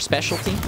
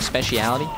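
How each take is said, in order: First: The word is said in its American form. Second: The word is said in its British form. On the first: The speaker calls it right. "Our specialty?" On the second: The speaker calls it wrong. "Why did I say it like speciality? ... British people"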